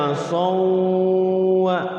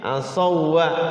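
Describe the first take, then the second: First: It merges into w with a held nasal hum. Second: It merges straight into w with no hum. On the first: The speaker calls it wrong. "Jangan sampai dibaca as-sawwa karena ini bukan idgham biguna" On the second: The speaker calls it right. "langsung masuk"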